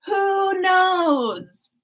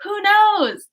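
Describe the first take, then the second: First: Wistful mock-mysterious repeat; musing repeat. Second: Said in the usual way. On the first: Shown as a demonstration. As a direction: let it trail off mysteriously.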